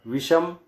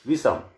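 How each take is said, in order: First: विषम with a plain s, visam; विषम said with the wrong sibilant; wrong visham. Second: विषम with a retroflex sh; विषम said with the right sibilant; correct visham. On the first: Teacher reading the incorrect form. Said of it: "बाईं ओर लिखा है वह अशुद्ध है". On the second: Teacher reading the correct form. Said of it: "दाईं ओर लिखा है वह शुद्ध है". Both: Shown as a demonstration.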